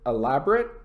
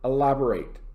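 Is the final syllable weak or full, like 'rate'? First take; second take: weak; full. First: The last syllable is weak and reduced. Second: The last syllable is full, like 'rate'. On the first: It describes something with many details. "The adjective" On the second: It means to give more details. "the verb"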